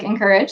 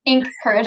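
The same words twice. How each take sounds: First: "encourage" said as one joined word; run together as one word. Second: "Ink Courage" split into two distinct words; two separate words. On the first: Host showing how the company name sounds said fast, run together as one word. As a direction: blend it into "encourage", no gap after the first syllable. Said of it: "when you say it really fast". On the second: Host carefully saying the company name, as two separate words. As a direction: separate "Ink" from "Courage", each word given its own beat. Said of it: "So I have to". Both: Shown as a demonstration.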